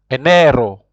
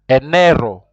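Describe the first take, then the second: Both takes have the same delivery.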